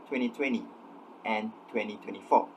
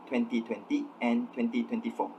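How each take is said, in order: First: A consonant sound in twenty is dropped. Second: Every consonant sound in twenty is pronounced. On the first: "usually in received pronunciation" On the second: "did not omit the th sound"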